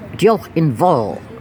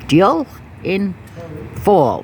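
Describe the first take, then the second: First: The last word starts with a V sound. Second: The last word starts with an F sound. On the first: The speaker calls it right. "The F pronounced like a V" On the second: The speaker calls it wrong. "I was saying it like an F"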